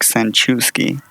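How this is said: The surname is read with English pronunciation. "if you read it in English, it looks like"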